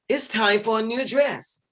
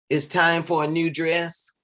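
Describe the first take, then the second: First: It is said with lively, varied pitch. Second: It is said flat, in a monotone. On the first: The introduction gives the speaker extra help. The speaker calls it wrong. "they were doing things like" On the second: The title is simply announced without adding anything. The speaker calls it right. "just say the title just straight out like monotone"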